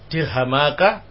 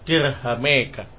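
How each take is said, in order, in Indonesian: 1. Vokal setelah m adalah a terbuka. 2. Vokal setelah m condong ke e.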